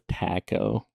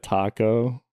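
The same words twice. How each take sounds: First: The vowels carry a regional accent. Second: The vowels are plain, unaccented. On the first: "my mom says taco" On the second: "instead of taco"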